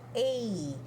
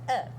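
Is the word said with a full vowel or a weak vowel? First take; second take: full; weak. First: It is said as a full 'ay' vowel. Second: It is said as a weak 'uh' vowel. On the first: It names the letter. "A letra A se fala letter A" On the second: It is the article in a sentence. "na hora de falar na frase fica a"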